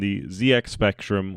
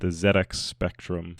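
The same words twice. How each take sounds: First: The Z is said the American way. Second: The Z is said the British way.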